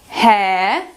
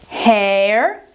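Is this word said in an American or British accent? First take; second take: British; American. First: It is said in a British accent. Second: It is said in an American accent. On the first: "Em britânico" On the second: "vou repassar de novo em americano"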